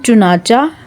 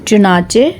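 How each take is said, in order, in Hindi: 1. शब्द 'ah' स्वर से खत्म होता है। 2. शब्द 'ay' स्वर से खत्म होता है। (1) "हम बोलते हैं चुनाचा" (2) "सही जो इनका तलफ़ुज़ है"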